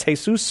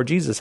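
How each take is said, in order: First: Jesus said the Spanish way, "hay-SOOS"; Spanish pronunciation. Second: Jesus said the English way, "JEE-zus"; English pronunciation. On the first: Host unsure of the caller's name, Spanish pronunciation. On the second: Host offers the other reading of a caller's name, English pronunciation. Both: Shown as a demonstration. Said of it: "how you pronounce it".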